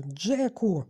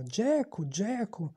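First: Loud, drawn name of protest; reproving call. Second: High-pitched mocking echo; furious mimicry. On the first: Ralph reproving his rival, loud call. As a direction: call him sharply to order. Ralph calls Jack to order. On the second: Jack mimicking the chief who called him, mocking. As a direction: parrot the name back in mockery. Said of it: "Джек люто передражнив його". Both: A narrator's reading.

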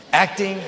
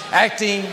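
First: Said in the usual way. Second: Shouted out; acting, yelled from the pulpit. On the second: Shown as a demonstration. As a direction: bark the word acting at full force. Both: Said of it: "I said it nice".

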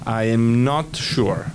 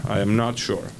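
First: Slow model. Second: Said in the usual way. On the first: Shown as a demonstration. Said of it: "teacher models slowly". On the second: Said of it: "teacher repeats".

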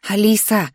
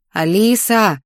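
First: Short wake-up call of a name. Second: Drawn-out, insistent call of the name; more insistent call. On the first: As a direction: call out to rouse a sleeper. Waking a sleeping roommate. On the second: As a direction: stretch the name out to rouse them. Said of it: "только уже настойчивее". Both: A narrator's reading.

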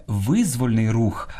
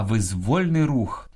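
First: Визвольний stressed on ВИЗ, slow; wrong first-syllable stress. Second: Визвольний stressed on ВОЛЬ, slow; stress on middle syllable. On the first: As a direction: say ВИЗ-воль-ний рух. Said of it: "а правильно сказати". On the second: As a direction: say виз-ВОЛЬ-ний рух. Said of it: "правильно сказати". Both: Shown as a demonstration.

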